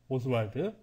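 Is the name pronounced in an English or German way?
English. It is pronounced the English way, like Oswald. "영국식 발음으로 한다 그러면"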